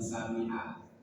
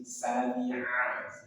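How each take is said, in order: First: The throat consonant is weak or missing. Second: The throat consonant is pressed from mid-throat. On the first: The speaker calls it wrong. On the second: The speaker calls it right.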